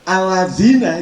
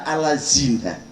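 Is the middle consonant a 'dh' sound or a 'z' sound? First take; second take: dh; z. First: The middle consonant is a soft 'dh' sound. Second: The middle consonant is a plain 'z' sound. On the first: The speaker calls it right. "Membaca zal itu jadi za" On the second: The speaker calls it wrong. "dibaca alazina"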